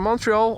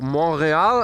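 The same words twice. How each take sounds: First: It is said with an English accent. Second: It is said with a French Canadian accent.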